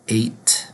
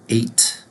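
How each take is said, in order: No difference in how they are said.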